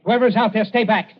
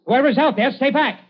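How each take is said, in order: First: Loud, higher warning called into the dark. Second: Much higher, loud urgent warning; louder call out. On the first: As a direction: bark it at whoever lurks outside. Warning unseen intruders outside. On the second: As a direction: push the repeat up, almost a yell. Warning repeated, more urgent. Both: Acted.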